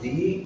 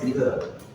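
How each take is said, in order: First: The vowel is a long 'ee' sound. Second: The vowel is a short, weak 'uh' sound. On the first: "this one is sometimes is D" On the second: "this one is the"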